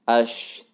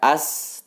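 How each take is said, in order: First: The word has a sh sound. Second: The word has a plain s sound. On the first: The speaker calls it right. "tetapi ash" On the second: The speaker calls it wrong. "Bukan dibaca as"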